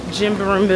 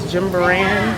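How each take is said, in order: First: "Jimbaran" botched and left hanging; fumbled pronunciation. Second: "Jimbaran" sounded out with a clear final "ran"; tentative correct pronunciation. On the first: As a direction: stumble over "Jimbaran", breaking off into muddled syllables. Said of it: "I can never pronounce". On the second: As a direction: try "Jimbaran" carefully, voice rising uncertainly. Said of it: "I think it's Jimbaran". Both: Real, not acted.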